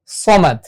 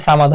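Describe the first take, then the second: First: "সমাদ" with a heavy, rounded "so"; full-mouthed s in "সমাদ"; correct heavy Saad. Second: "সামাদ" with a thin s and open "aa"; open-vowelled, light "সামাদ"; wrong pronunciation. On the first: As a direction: say "সমাদ" as so-mad, first sound full and dark. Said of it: "এটা উচ্চারণ হবে". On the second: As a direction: say "সামাদ" lightly as saa-mad. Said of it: "উচ্চারণ কখনোই সামাদ হবে না". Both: Shown as a demonstration.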